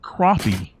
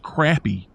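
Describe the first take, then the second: First: It does not sound like the word crappy. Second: It sounds just like the word crappy. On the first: The speaker calls it wrong. "the name of the fish is not crappie" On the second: The speaker calls it right. "It is crappy, just like it's spelled"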